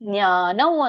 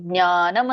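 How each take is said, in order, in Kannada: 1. ಪದದ ಕೊನೆಯಲ್ಲಿ ಅನುನಾಸಿಕ 'v' ಶಬ್ದ ಇದೆ. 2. ಪದದ ಕೊನೆಯಲ್ಲಿ ಸರಳ 'm' ಶಬ್ದ ಇದೆ. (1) "ಜ್ಞಾನೌ ಅಂತ ಹೇಳಿದ್ರೆ ದಿ ಬೆಸ್ಟ್" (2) "ಜ್ಞಾನಂ ಅಂತಾನು ಹೇಳ್ಬೋದು"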